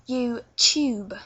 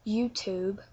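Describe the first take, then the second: First: It is said with a London accent. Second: It is said with a North American accent. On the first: "you're going to turn that into YouTube" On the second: "You say YouTube or YouTube"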